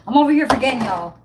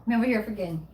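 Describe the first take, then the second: First: Louder exclaiming at her own forgetfulness; loud, exasperated at herself; loud self-scolding. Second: Said in the usual way. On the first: Real, not acted. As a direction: call out your own blunder. Laughs at herself.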